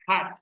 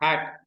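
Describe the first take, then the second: First: The h sound is voiceless, just breath. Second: The h sound is voiced, with throat vibration. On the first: The speaker calls it right. "It is voiceless" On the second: The speaker calls it wrong. "don't produce it like a voice sound"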